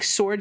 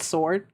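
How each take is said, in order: First: "sword" said with the w sounded, "s-word". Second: "sword" said "sord", no w; sword with silent W. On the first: Streamer explaining old pronunciation, "sword" with sounded w. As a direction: say "sword" as "swored", w and all. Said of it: "used to be pronounced sword". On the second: Streamer explaining the modern shortcut, "sword" as "sord". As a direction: say "sword" like "soared", dropping the w. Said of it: "and just said sword". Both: Shown as a demonstration.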